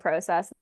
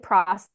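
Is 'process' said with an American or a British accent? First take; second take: British; American. First: The word is said with a British vowel. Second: The word is said with an American vowel. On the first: "I also say it like a Brit" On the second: "I say it like an American"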